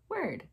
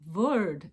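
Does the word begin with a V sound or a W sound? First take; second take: W sound; V sound. First: The word begins with a W sound. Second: The word begins with a V sound. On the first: "instead of word" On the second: "it was spelled V-O-R-D, so I said word"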